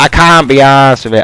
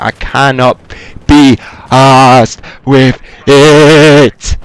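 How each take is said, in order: First: It is said in a plain, ordinary voice. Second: It is said in an exaggerated, drawn-out voice.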